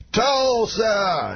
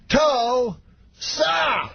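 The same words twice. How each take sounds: First: High, drawn-out stage call; Bill Cosby. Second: Very high call, syllables split far apart; Bill Cosby. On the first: Star greets cheering crowd, mimicked high drawn-out call. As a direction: mimic a star hailing the crowd, long vowels. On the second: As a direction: mimic a star milking the cheer, extremely drawn out. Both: Retold or imitated. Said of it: "every time slower".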